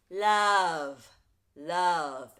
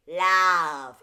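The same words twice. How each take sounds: First: "love" with a short, central "uh" vowel, not nasal; rounder vowel. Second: "Love" said loud and nasal as "lav" with a wide flat vowel; splatted nasal vowel. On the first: Coach models the corrected, less nasal "love". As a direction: say "love" as "luv" with a relaxed tongue. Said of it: "let's try with a". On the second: Coach imitates nasal singers saying "Love" as "lav". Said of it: "if we splat out the vowel that way". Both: Shown as a demonstration.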